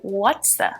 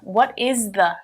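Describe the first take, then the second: First: The words are contracted and linked together. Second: Each word is said separately and fully.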